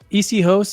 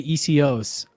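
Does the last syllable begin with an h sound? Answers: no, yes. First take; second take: yes; no. First: The last syllable starts with an h sound. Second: The last syllable starts without an h sound. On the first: "you can say E C hosts" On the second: "or you could say E C Os. I just do less less hosts and more os"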